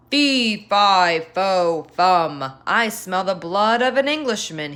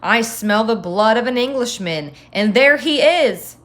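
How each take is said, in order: First: Louder, booming chant with each word hammered out; menacing giant. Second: Louder giant roar, peaking on the last words. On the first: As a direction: stomp out each syllable like a hungry giant. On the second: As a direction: roar the threat at the fleeing boy. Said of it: "roared the giant". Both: Acted.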